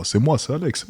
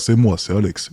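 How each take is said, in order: First: A bit higher, softer "c'est moi, c'est Alex"; claiming over the phone that it really is his voice, high and soft. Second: Said in the usual way. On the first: Pretend. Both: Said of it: "C'est pas ma vraie voix?".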